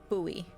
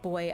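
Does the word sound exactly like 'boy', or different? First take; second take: different; like boy. First: The word sounds different from 'boy'. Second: The word sounds exactly like 'boy'. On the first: This is how it is said where the speaker is from. "where I'm from, it's buoy" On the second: This is how the game character says it. "he's pronouncing that boy"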